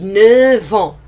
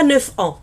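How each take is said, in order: First: The end of neuf sounds like v. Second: The end of neuf sounds like f. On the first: The speaker calls it right. "on dit neuf ans" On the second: The speaker calls it wrong. "On ne dit pas neuf ans"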